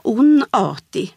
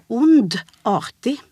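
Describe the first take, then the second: First: Onartig with the d dropped after the n; onartig without the d. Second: Ondartig slowly, split after ond. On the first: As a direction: say ondartig as onartig, no d. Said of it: "där det liksom försvinner". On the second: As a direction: sound out ond, then artig in ondartig. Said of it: "det är ett ond i början". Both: Shown as a demonstration.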